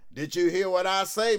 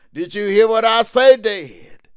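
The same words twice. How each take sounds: First: Said in the usual way. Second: Called out high and loud; loud rising preacher's question; louder preaching call. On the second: Real, not acted. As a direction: raise the voice to reach the back pews.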